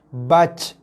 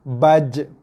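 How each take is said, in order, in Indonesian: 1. J terakhir berakhir dengan hembusan napas. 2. J terakhir berakhir dengan pantulan pendek yang bergema. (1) "bukan bunyi kol-kolah bagi jim, itu bunyi hembusan nafas bagi jim"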